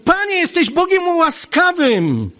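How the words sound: It sounds like an angry, reproachful complaint. It is an accusation against God. "To jest zarzut"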